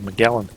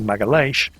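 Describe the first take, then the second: First: The name is said with an English pronunciation. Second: The name is said with a Portuguese pronunciation. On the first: The speaker calls it wrong. "everybody's been mispronouncing both him and the straits" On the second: The speaker calls it right. "his name was actually Magalhães"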